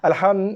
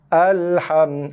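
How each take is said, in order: First: The opening A is clipped very short. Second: The opening A is held a full beat. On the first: The speaker calls it wrong. "tu A tu tak sampai, tu kosong perpuluhan kosong lima harakat" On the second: The speaker calls it right. "Dia kalau satu harakat"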